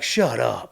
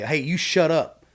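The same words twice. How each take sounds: First: Drawn-out, amazed "Shut up"; playful incredulous exclamation; disbelief. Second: Slow, raised "you shut up"; pointed, drawn-out command; telling someone off. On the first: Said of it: "that means in disbelief". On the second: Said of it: "like, telling somebody". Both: Shown as a demonstration.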